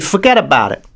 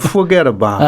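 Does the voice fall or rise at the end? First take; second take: fall; rise. First: The pitch falls toward the end. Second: The pitch rises toward the end. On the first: This is how Italian New Yorkers sound. "one goes down" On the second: This is how Irish New Yorkers sound. "one goes up"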